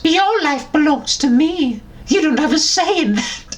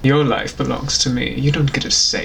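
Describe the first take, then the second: First: It is said in a put-on Dobby voice. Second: It is said in the speaker's normal voice.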